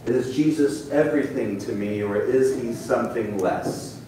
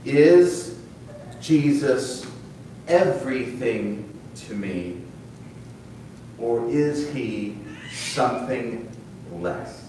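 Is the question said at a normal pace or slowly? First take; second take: normal; slowly. First: It is said at a normal pace. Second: It is said more slowly.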